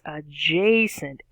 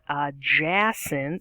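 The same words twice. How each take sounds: First: The middle A vowel is long. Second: The middle A vowel is short. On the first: The speaker calls it right. "it makes a long sound" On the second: The speaker calls it wrong. "it's not adjacent"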